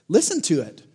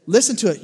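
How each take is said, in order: First: Said in the usual way. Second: "Listen to it." again, louder and higher; louder repeat. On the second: Shown as a demonstration. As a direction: push it out to the room.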